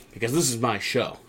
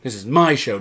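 First: "this is my show" said softer, falling; quiet, matter-of-fact imitation of a boss; understated assertion. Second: "my" punched in "This is my show"; firm repeat leaning on the word "my"; stress on MY. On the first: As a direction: lay down the claim softly. First take of Pearce's claim. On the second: Retold or imitated. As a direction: hit "my" harder, then fall. Repeated with emphasis on my.

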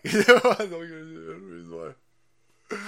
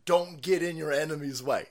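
First: Slow, laughing don't get in your enemy's way. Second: Said in the usual way. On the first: Real, not acted. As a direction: laugh through it slowly. Repeats laughing.

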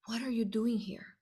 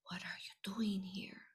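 First: Said in the usual way. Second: Hushed worried whisper; a soft secret question under the breath; girl whispering to a small boy in the dome. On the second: Retold or imitated.

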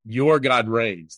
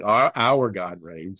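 First: "your" leaned on, slow; slow quote, weight on "your"; stress on your. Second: "Our" leaned on, slow title read; slow, weight on "Our"; stress on our. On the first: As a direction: land on "your", the original wording. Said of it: "a passage that says". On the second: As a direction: hit "Our" as the changed word of the song. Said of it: "a song in Christianity called". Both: Shown as a demonstration.

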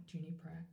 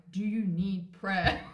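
First: Much softer, shy question; timid real ask. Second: Slow, loud, overdone question; mock-exaggerated ask. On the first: Retold or imitated. Asking the unstable woman on the street, softly and shyly. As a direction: barely dare to ask it. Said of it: "I said". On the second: Shown as a demonstration. Telling her friend how it felt in her head, hammed-up slow loud ask. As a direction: drag the question out, louder, as a joke. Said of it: "I didn't say it like that".

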